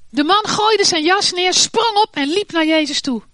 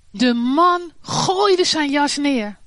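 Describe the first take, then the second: First: Higher and louder, stressing gooide; excited narration. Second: Slow, weighty, stressing gooide; slow emphatic reading. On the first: A narrator's reading. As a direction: tell it with rising excitement. Narrating the leap up. (opgewonden verteld, klem op gooide) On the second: Shown as a demonstration. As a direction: dwell on gooide as the key image. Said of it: "Ik zag meteen het beeld". (langzaam en nadrukkelijk, met klem op gooide)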